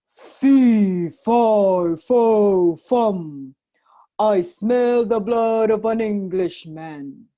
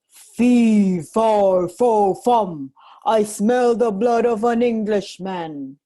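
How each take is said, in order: First: Slow, loud booming giant chant; bellowing giant. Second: Loud booming giant chant; thundering giant. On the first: Giant sniffing for Jack, loud slow bellow. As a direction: boom it out like a hungry giant. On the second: Giant sniffing for Jack again, thundering. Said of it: "he thundered". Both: A narrator's reading.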